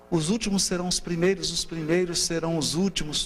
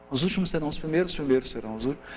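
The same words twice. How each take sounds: First: Frase recitada com cadência, acentos nas tônicas; ritmo marcado. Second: Recitado depressa, de uma vez; recitado rápido. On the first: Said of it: "E tudo feito pra gravar". (recitado com ritmo marcado) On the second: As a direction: solta a frase rápido, como ditado decorado. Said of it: "Que aí você grava". (recitação rápida) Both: Shown as a demonstration.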